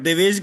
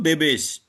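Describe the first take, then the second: First: The middle consonant is a V sound. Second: The middle consonant is a B sound. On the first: This is the original form of the name. "Originally it is va only" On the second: This is how the name is said in Odia. "when you pronounce in Odia, it becomes ba"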